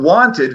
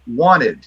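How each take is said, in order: First: The T after the N is clearly pronounced. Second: The T after the N is dropped.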